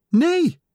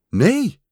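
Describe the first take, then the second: First: Very high little squeaked answer; small piping voice; tiny squeak. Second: Small high answer. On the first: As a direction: squeak it like someone shrunk very small. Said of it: "piepte Kikker". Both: A narrator's reading.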